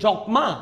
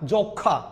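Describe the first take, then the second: First: The m sound is pronounced in the word. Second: The m sound is left silent in the word. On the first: The speaker calls it wrong. "না" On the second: The speaker calls it right. "ম ফলা থাকে এটা উচ্চারণ হবে না"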